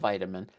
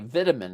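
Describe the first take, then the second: First: It is pronounced the speaker's usual non-Irish way. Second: It is pronounced the way people say it in Ireland. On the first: "instead of vitamin" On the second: "in Ireland, they say vitamin"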